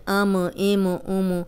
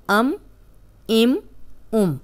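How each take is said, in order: First: अम इम उम with the म bounced; wrong shaken meem. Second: अम इम उम closed firmly, no bounce; correct steady meem. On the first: Teacher showing students the wrong shaken अम इम उम. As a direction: deliberately shake the म to show the error. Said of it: "इन हरूफ को हिलाना नहीं है". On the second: Teacher giving students the correct firm अम इम उम. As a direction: hold the म still. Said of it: "पांच हरूफ हैं जो हिला के पढ़े जाते हैं". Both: Shown as a demonstration.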